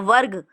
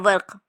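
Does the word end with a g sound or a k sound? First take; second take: g; k. First: The final consonant is a voiced g sound. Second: The final consonant is a voiceless k sound. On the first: This is how it is said in Arabic. "Arabic में बोलेंगे वरक या वर्ग" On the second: This is how it is said in Urdu. "Urdu में बोलते हैं हम वर्क"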